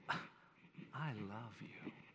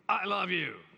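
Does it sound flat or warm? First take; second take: warm; flat. First: It sounds warm and sincere. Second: It sounds flat and unconvincing.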